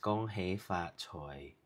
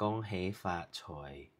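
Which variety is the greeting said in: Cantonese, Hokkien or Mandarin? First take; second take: Cantonese; Cantonese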